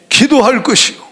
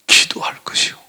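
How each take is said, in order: First: Firm proclamation. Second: Hushed answer. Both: Shown as a demonstration. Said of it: "뭐 하라는 거예요?".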